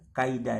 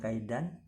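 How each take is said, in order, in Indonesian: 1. Kata itu berakhir dengan vokal, tanpa n. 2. Kata itu berakhir dengan bunyi n. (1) "Ini tanwin ini baca juga kaida ya" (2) "bukan kaidan"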